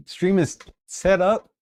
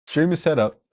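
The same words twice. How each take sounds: First: Higher and slow, savouring each word; proud announcement. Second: Said through a laugh, falling at the end; laughing relief. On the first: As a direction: announce the win slowly to chat. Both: Real, not acted.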